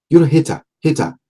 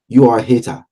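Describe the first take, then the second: First: "You're a hater, hater" in a clumsy put-on British accent, pitched higher; botched British accent that slips toward Nigerian, higher pitch; failed British accent. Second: Said in the usual way. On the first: Vlogger mocking haters, in a botched British accent. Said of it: "sounds like a Nigerian accent or I can't do the British accent". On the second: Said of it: "I don't know if that sounds like a Nigerian accent".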